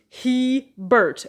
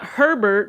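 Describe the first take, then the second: First: The first syllable has no R sound. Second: The first syllable has an R sound. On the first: The speaker calls it right. "literally H E and Bert" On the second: The speaker calls it wrong. "It's not Herbert because it's not H E R"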